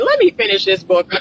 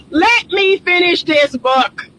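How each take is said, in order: First: Said in the usual way. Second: Said higher through the laugh. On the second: Retold or imitated. Vlogger repeating her thought, laughing. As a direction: let it out half laughing. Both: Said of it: "I'm thinking".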